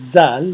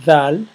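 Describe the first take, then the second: First: It begins with a plain z sound. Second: It begins with a th-like sound. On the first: The speaker calls it wrong. "it's not zal" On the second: The speaker calls it right. "th plus z, and it will has this uh, sound that comes from the tip of your tongue"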